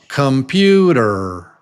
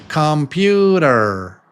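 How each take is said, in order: Both takes have the same delivery.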